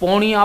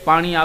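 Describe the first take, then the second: First: It is said in the Charotar dialect. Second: It is said in standard Gujarati. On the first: "પોણી પાણીને બદલે પોણી બોલે" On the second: "આપણે કહીએ કે પાણી"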